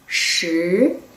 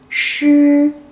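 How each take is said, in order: First: The pitch rises from middle to high. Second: The pitch stays high and level. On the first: It means ten. "raising tone could be number ten" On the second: It means lion. "high flat tone could be lion"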